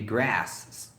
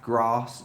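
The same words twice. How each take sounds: First: It is said with an American accent. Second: It is said with a British accent. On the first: "Americans would be grass ... Apologies for the American accent" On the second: "common in British English"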